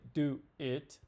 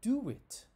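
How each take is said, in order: First: The words are said with no W sound between. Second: A W sound links the two words together. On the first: The speaker calls it wrong. "We don't say do it" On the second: The speaker calls it right. "we say do it ... You can hear that W sound"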